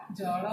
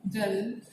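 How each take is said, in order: First: जल with a lower, retroflex-leaning l; Odia pronunciation. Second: जल with a clear dental l; Hindi pronunciation. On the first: Teacher showing students the Odia जल. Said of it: "Odia उच्चारण क्या होगा". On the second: Teacher showing students the Hindi जल. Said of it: "Hindi उच्चारण जल". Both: Shown as a demonstration.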